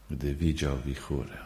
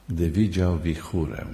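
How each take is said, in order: First: Softer echo. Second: Said in the usual way. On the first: Shown as a demonstration. Preacher echoing his own point to the congregation, softer. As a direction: repeat "gdy widział wichurę" softer and lower.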